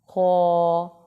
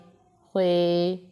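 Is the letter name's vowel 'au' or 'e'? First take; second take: au; e. First: The letter name ends in an 'au' vowel. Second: The letter name ends in an 'e' vowel. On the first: The speaker calls it right. "पढ़ें" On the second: The speaker calls it wrong. "हरगिज़ ना पढ़ें"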